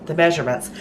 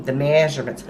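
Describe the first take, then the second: First: Said in the usual way. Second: Southern accent. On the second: Real, not acted. Host slips while giving the recipe measurements, Southern accent. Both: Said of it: "in my southern voice".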